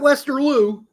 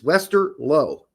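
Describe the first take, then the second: First: The last syllable sounds like 'loo'. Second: The last syllable sounds like 'low'. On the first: The speaker calls it wrong. "not Westerloo" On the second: The speaker calls it right. "It's Wester Low"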